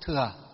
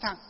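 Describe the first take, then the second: First: The word is read as thừa, with a falling tone. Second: The word is read as thặng, with a low tone. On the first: This is the reading used within Buddhism. "Phật giáo chúng ta đọc là gì? Chữ thừa" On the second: This is the reading used outside Buddhism. "ở ngoài đời họ đọc là chữ thặng"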